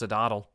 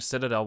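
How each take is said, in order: First: The middle syllable sounds like 'dad'. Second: The middle syllable sounds like 'tuh'. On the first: The speaker calls it wrong. "I used to think Citadel was pronounced Cidaddle" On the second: The speaker calls it right. "I used to think Citadel was pronounced Cidaddle"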